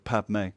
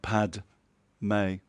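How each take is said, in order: First: The middle consonant is cut off like a throat stop. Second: The middle consonant is fully pronounced before the vowel. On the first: The speaker calls it right. "the D is actually more like a full stop" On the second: The speaker calls it wrong. "not Pad May"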